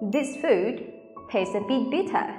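The t sounds are crisp and clear. "Câu ấy các bạn nói bằng tiếng Anh, các bạn sẽ nói như sau"

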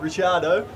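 The name is said with an Italian pronunciation. "it's an Italian origin, the surname, so really it is"

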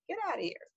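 It is said in a flirty, playful tone.

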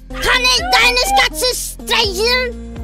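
It is said in an angry, forceful tone.

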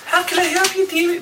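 It is said in a put-on character voice.

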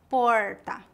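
The R is curled back, like English R. This is how people speak in inland São Paulo state. "No interior, o R é retroflexo, como o R do inglês"

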